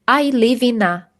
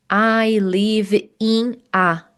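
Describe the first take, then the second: First: The words 'in' and 'a' are joined together. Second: The words 'in' and 'a' are said separately. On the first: The speaker calls it right. "Então vamos juntar, então vai ficar ina" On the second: The speaker calls it wrong. "Não precisa dizer I live in a, senão vai ficar muito difícil a comunicação"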